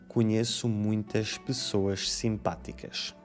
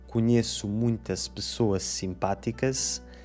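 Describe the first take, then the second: First: The syllable-final S sounds like 'sh'. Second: The syllable-final S sounds like 's'. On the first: This is the pronunciation that became the norm. "começaram a dizer" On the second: This is the older pronunciation that fell out of use. "deixaram de dizer"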